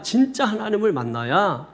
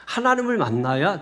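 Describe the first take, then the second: First: "진짜" raised and pressed, then falling; stress on 진짜. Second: Said in the usual way. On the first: Shown as a demonstration. Preacher urging the congregation, stress on 진짜. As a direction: lean hard on "진짜".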